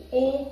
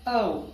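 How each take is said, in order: First: او held as a plain "o"; wrong Urdu-style O. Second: او as a gliding "ow" diphthong; correct English O. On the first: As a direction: say او with no movement in the vowel. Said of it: "او is wrong". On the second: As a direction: draw او out, rounding towards "oo". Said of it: "You have to pronounce it as". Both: Shown as a demonstration.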